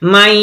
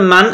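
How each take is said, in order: First: The n merges into y with a held nasal sound. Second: The n is pronounced clearly with no nasal merging. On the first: The speaker calls it right. "এক আলি পরিমাণ নাকে আওয়াজ ধরে রেখে পড়ব" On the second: The speaker calls it wrong. "মান আমরা পড়ব না"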